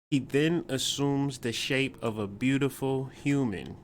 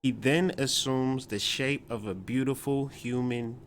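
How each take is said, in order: Both takes have the same delivery.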